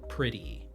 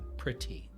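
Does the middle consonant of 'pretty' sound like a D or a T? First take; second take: D; T. First: The middle consonant sounds like a soft D. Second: The middle consonant sounds like a crisp T. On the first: The speaker calls it right. "you would hear it as a D" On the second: The speaker calls it wrong.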